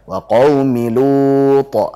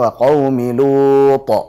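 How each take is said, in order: The two takes are said the same way.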